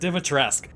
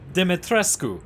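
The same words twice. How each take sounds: First: The name is said with an American accent. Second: The name is said with a foreign accent. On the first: "I'm American, and it's just not my accent" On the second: "we're gonna do this one time for real"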